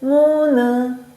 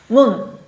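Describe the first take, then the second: First: The final n is released as an extra syllable. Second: The word is said as one closed syllable. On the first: The speaker calls it wrong. "문은 아니요" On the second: The speaker calls it right. "Say it once, like one sound"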